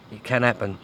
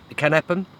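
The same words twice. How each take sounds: First: Doubtful. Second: It can happen said brightly, rising at the end; hopeful. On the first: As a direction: let can drop in doubt. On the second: Angler to viewers, hoping for another bite, upbeat rising tone. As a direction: lift the word happen, full of hope. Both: Real, not acted. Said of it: "Doubt it, but".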